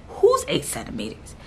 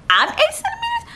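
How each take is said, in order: First: Lower-pitched, deadpan retold question; low disbelief. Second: Very high-pitched, incredulous squeak; squeaked disbelief. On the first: Patient questioning husband after the check, low disbelief. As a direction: ask it low, as if it can't be you. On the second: Retold or imitated. Patient hearing how far along she is, squeaky disbelief. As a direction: shoot way up in mock astonishment.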